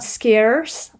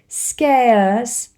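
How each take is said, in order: First: The word is said in an American accent. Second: The word is said in a British accent. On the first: "not scarce, as American would say" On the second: "scarce is the pronunciation"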